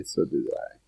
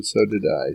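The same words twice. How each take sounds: First: Whispered echo of own line; whispered aside. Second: Said in the usual way. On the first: Real, not acted. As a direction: repeat it under your breath. Repeats line, second whispered.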